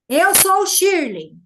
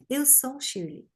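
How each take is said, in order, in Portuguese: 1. É falado forte. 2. É falado baixinho. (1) "que é quando você fala forte" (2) "A gente fala baixinho"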